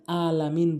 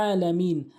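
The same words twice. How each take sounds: First: "আলামিন" opening on a plain a, no ain; common mispronunciation. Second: "আলামিন" opening on a squeezed throaty ain; correct pronunciation. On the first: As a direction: say "আলামিন" with no throat sound. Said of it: "সবচেয়ে বেশি যেটা ভুল করি". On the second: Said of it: "আইন উচ্চারণ করে". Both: Shown as a demonstration.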